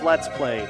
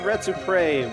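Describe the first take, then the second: First: The L sounds are pronounced as clear L sounds. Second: The L sounds are replaced by R sounds. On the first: The speaker calls it right. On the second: The speaker calls it wrong.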